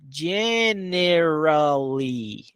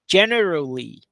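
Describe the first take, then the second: First: The word is said slowly and drawn out. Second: The word is said quickly and compactly. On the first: "Bem devagar agora" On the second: "Agora rápido"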